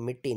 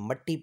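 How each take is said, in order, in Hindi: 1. पहला स्वर छोटा 'i' है। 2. पहला स्वर छोटा 'a' है। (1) "मिट्टी नहीं पढ़ना" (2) "मट्टी पढ़ना है इसको"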